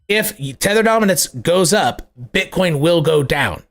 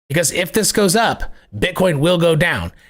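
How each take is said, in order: First: It is said slowly and deliberately. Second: It is said at a normal pace.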